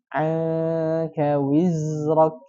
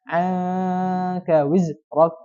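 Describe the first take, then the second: First: The z sound flows on continuously before the r. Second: The z sound is stopped short and held back. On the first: The speaker calls it right. "Tapi dia harus dialirkan" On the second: The speaker calls it wrong. "tidak sempurna dengan seperti ini ... Jadi tertahan"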